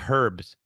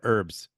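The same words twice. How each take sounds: First: The word begins with an audible h sound. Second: The word begins without any h sound. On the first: "I like that you say herbs" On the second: "instead of herbs"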